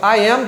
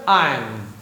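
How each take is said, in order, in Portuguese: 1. Pronuncia-se como duas palavras completas. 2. Pronuncia-se como uma sílaba contraída.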